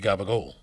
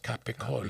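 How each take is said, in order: First: The word is said in a clipped, shortened form. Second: The word is said in full, every syllable. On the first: The speaker calls it wrong. "I hate when people say it like that" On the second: The speaker calls it right. "It's Capicola"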